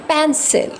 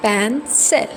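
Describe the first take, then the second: First: Said in the usual way. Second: "pencil" broken as pen... cil; split into syllables. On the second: Shown as a demonstration. Teacher showing students two syllables, "pencil" split in two. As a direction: say "pencil" in two parts, pausing between. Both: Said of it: "so two syllables".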